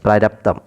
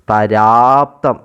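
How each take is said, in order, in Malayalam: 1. രണ്ടാമത്തെ 'ra'യിലെ സ്വരം ഹ്രസ്വമാണ്. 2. രണ്ടാമത്തെ 'ra'യിലെ സ്വരം നീണ്ടതാണ്. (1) "രാ നീണ്ടു പോകുന്നില്ല" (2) "ഇങ്ങനെ ഉണ്ടെന്ന് നമ്മൾ വിചാരിക്കാം"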